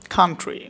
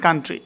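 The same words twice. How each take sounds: First: Country opening on aspirated "kh"; corrected pronunciation. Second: Country with unaspirated k; wrong pronunciation. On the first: Teacher correcting learners, Country with breathy kh. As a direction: say Country as "khaan-tri". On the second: Teacher showing what to avoid, country with hard plain k. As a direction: say country as plain "kaan-tri". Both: Shown as a demonstration. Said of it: "not coun".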